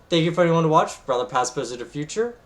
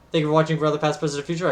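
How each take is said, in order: First: It is said much more slowly. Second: It is said fast and rushed.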